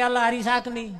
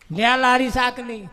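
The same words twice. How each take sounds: First: Said in the usual way. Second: "લે આ લારી શાકની" said louder, with a falling push on લારી; insistent repeat. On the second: Retold or imitated. Vendor insists the villager take the whole cart, loudly. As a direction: press the offer of the whole cart.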